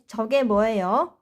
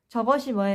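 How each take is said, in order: First: The first word is contracted into two syllables. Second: The first word is said in its full three syllables. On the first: The speaker calls it right. "we Korean always shorten this into 이게, 그게, or 저게" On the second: The speaker calls it wrong. "저것이 뭐예요 is a correct, correct um, expression"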